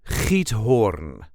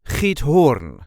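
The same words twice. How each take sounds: First: The stress is on the first part. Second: The stress is on the last part. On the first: "There is a light emphasis on the first part" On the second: "people who will put the emphasis on the last part"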